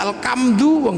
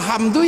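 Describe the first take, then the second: First: The middle h sound is replaced by a k. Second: It has the Arabic h sound in the middle.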